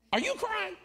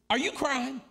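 First: Very high-pitched mock disbelief; squeaked-up imitation of an astonished father; incredulous father. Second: Raised-pitch imitation of a disbelieving dad; mock disbelief, moderately high; incredulous father. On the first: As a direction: repeat it way up high, as a dad in disbelief. Father repeats the question, higher. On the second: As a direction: ask it as a puzzled father, pitched up. Father's first incredulous question.

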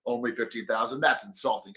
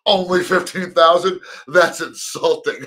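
First: Flat entitled read. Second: Louder, mock-offended sarcastic quip; sarcastic outrage. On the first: Shown as a demonstration. Reading the print interview as a serious, entitled complaint. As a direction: lower and softer, deadpan and serious. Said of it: "'cause this is how I read it". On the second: Johnny joking to the interviewer, loud and sarcastic. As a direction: toss it off as an obvious joke. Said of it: "Even if I said it in that tone".

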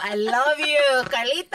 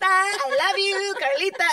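First: Said in the usual way. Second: High, slow, drawn-out I love you; put-on voice. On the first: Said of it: "you are natural". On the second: Shown as a demonstration. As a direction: stretch it out in a lightly put-on voice. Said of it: "a voice like that".

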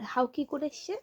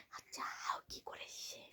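First: Said in the usual way. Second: Slow, breathy whisper. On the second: Real, not acted. Told to talk softly, parent whispers to child. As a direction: ask it in a hushed whisper so the bogeyman won't hear. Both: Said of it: "আস্তে আস্তে কথা বলতে হবে".

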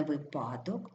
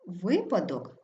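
First: Випадок stressed on the second syllable, ви-ПА-док; неправильний наголос. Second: Випадок stressed on the first syllable, ВИ-падок; наголос на перший склад. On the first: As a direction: shift the stress in випадок onto ПА. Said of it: "а не випадок". (випадок з наголосом на ПА) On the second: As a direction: punch ВИ in випадок. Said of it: "наголошується перший склад". (випадок з наголосом на ВИ) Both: Shown as a demonstration.

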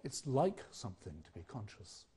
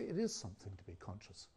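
First: "like" leaned on, rising at the end; stress on like. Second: "is" weighted, falling quietly; stress on is. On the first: Lecturer quoting the English idiom to the audience, stressing "like". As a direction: make "like" the key word of the phrase. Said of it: "Why indeed do we say". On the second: Lecturer offering the alternative phrasing to the audience, stressing "is". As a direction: put the weight on "is". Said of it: "Why don't we say". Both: Shown as a demonstration.

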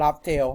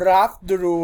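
First: "Laugh Tale" with the ending said "theo"; Laugh Tale reading. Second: "Laugh Drew" with the ending said "droo"; Laugh Drew reading. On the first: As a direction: read the name ending as Thai-accented "Tale", like "lap-theo". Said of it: "ถ้าเกิดไม่อ่านคำว่า". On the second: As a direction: read the name ending as "Drew", like "lap-druu". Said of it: "จะให้ผมอ่านว่า". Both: Shown as a demonstration.

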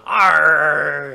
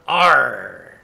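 First: Booming pirate bellow; louder pirate arr. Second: Louder pirate growl; loud pirate arr. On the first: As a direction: belt out the pirate cry. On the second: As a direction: bellow it like a pirate. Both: Pretend.

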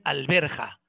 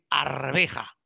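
First: Alberja said slowly with an l, AL-BER-JA, as the wrong form. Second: Arveja said slowly with an r, AR-VE-JA, as the right form; correct form arveja. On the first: Teacher showing students the wrong word alberja, slow and clear. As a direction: slowly mark alberja as the mistake. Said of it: "No es alberja". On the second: Teacher correcting students to arveja, slow and clear. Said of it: "No es alberja, es arveja". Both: Shown as a demonstration.

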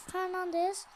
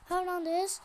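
The two takes are said the same way.

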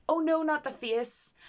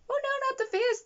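First: Mock droid plea, slow and higher; slowed, squeaky little robot begging; droid pleading. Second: Mock droid squeal, much higher; shrill panicked robot begging for its face; droid pleading. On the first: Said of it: "One of the droids went". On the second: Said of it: "like, just".

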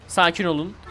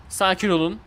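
No difference in how they are said.

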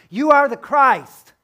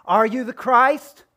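First: Higher and louder, slow, a firm statement; bold declaration. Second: Louder and higher, slow, rising at the end; doubting question. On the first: Preacher voicing Peter's confession, loud firm declaration. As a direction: proclaim it with full conviction. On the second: Preacher voicing our doubting demand of Jesus, rising challenge. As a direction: ask it as a challenge, tune rising on "Christ". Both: Shown as a demonstration. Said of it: "the proclamation becoming a question".

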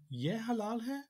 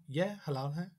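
First: "Ye halal hai" climbing high on hai; question by intonation. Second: "Ye halal hai" stated, without a big lift on hai; statement intonation. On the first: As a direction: make "Ye halal hai" a question with a strong final rise. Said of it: "it can be a question if it's intonation". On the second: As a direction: state "Ye halal hai" near the usual pitch. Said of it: "I could state". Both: Shown as a demonstration.

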